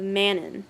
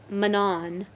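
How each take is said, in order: First: The stress is on the first syllable. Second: The stress is on the second syllable. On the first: This is how the speaker has always read it. The speaker calls it right. "that's like the opposite of" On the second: This is how others say it. The speaker calls it wrong. "they had a strong emphasis on the on when they would say it"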